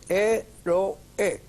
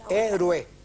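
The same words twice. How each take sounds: First: The last two vowels are said as separate syllables. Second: The last two vowels blend into one syllable. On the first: The speaker calls it right. "es un yato. Se fíjense bien que son dos vocales fuertes" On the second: The speaker calls it wrong. "por eso no es héroe"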